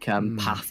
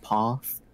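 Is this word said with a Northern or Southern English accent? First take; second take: Northern; Southern. First: It is said in a Northern English way. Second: It is said in a Southern English way.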